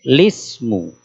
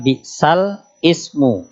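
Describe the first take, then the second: First: The 'l' takes the vowel and joins as 'lismu'. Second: The 'l' closes a syllable before a separate 'ismu'. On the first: The vowel is moved to the preceding letter. "jadinya lismu" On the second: This is the original underlying form. "Jadi asalnya bi'sal ismu"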